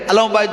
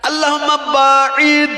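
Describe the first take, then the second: First: The second word is said like 'bait'. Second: The second word is said like 'ba'id'. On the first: It asks for distance from one's house. The speaker calls it wrong. "আল্লাহুম্মা বাইত বাইনি নাই" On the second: It asks for distance from one's sins. The speaker calls it right. "কি আছে? আল্লাহুম্মা বাঈদ"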